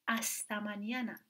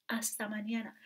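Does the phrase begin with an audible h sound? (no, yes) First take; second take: no; no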